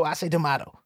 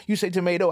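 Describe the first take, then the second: First: "tomato" said tuh-MAH-toe; tomato pronunciation. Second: "tomato" said tuh-MAY-toe; tomato pronunciation. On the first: Contrasting the two ways to say tomato, MAH version. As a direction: say "tomato" with the broad A. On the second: Contrasting the two ways to say tomato, MAY version. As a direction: say "tomato" with the long A. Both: Shown as a demonstration. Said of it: "Who actually says tomato?".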